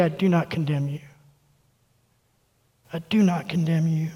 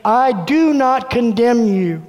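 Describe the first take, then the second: First: Much softer and lower, tender; hushed, tender promise; tender Jesus voice. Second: Slow, steady and sure; a firm, unhurried promise; voice of Jesus. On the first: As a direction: say it gently, like forgiving someone face to face. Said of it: "let him look you in the eye and say". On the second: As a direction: say it slowly like Jesus looking you in the eye. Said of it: "the voice of Jesus looking at me saying". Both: Retold or imitated.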